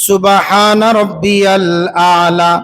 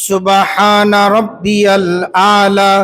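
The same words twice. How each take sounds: No difference in how they are said.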